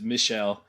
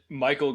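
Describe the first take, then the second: First: The name is pronounced the French way, Michel. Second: The name is pronounced like the English Michael. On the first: The speaker calls it right. "pronounced correctly" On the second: The speaker calls it wrong. "I made it sound like a dumb American name"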